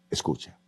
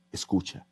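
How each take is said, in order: First: "escucha" whispered, barely a breath. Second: Softly, dropping the voice on "escucha"; un "escucha" suave y bajo; quiet. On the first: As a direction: susurra "escucha" como un secreto. ("escucha" susurrado) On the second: ("escucha" dicho en voz baja) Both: Shown as a demonstration. Repeated advice, fading.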